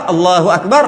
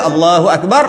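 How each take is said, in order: Both takes have the same delivery.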